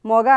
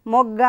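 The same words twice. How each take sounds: First: మొగ with a single, unpressed g; short single గ in మొగ; without doubling. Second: మొగ్గ with the గ్గ held double; doubled consonant. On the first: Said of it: "మామూలుగా చదివితే మొగ అవుతుంది". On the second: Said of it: "ఒత్తుతోటి చేర్చాం కాబట్టి". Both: Shown as a demonstration.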